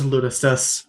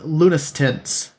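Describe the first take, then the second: First: The name ends with a 'stus' sound. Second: The name ends with a 'stance' sound. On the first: The speaker calls it right. "Oh, it is Lunastus" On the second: The speaker calls it wrong. "because there's an N there"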